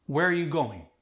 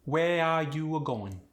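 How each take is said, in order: First: Said in the usual way. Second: Slow, drawn-out Khmer accent; Khmer-accented with lengthened, extra vowels. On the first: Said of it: "I'll say the sentence". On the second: Shown as a demonstration. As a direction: stretch the melody, Khmer style. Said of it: "we'll have [name] say it".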